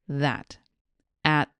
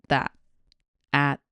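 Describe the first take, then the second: The two takes are said the same way.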